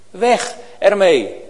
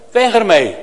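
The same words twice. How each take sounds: First: Slow it down and let it sink in; measured, deliberate repeat; slow emphatic repeat. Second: A loud firm order; loud command. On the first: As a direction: stretch out "Weg ermee" slowly, pressing on "weg". Preacher repeats command slowly. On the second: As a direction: bark it out loud and short. Preacher repeats command for emphasis. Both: Real, not acted.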